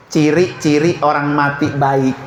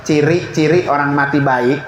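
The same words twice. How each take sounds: The two takes are said the same way.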